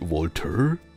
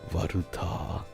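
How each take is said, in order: First: It is said with an American accent. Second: It is said with a Japanese accent. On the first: "in American they say Walter. Do I sound American?" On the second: "in Japanese it would be just like Waruta"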